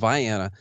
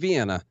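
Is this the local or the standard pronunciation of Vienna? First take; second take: local; standard. First: It uses the hometown's own local pronunciation. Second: It uses the usual outside, standard pronunciation. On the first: This is how the small Illinois town says it. The speaker calls it right. "It's called Vienna" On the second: This is how people elsewhere say it. The speaker calls it wrong. "not Vienna, like those crazies over there"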